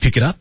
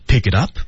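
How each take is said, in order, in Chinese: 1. 这个短语语速较快。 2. 这个短语语速正常，偏慢。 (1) "训练的时候再适当进行加速" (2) "我们走一遍啊"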